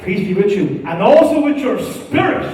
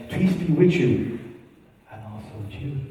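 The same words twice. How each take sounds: First: New mass response. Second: Put-on old mass response. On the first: Retold or imitated. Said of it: "If you get caught saying that now". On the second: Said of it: "what did he used to say".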